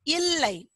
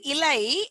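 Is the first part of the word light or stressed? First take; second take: stressed; light. First: The first part is said with stress. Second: The first part is said lightly. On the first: It means no. "You need to stress on that ill part" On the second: It means a leaf. "a lighter version will mean a leaf"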